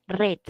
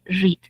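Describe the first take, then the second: First: Past-tense read, rhyming with "bed"; past-tense pronunciation. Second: Present-tense read, rhyming with "need"; present-tense pronunciation. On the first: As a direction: read pronounced "red". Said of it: "el verbo en pasado se lee". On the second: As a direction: read pronounced "reed". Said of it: "nos indica que se lee". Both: Shown as a demonstration.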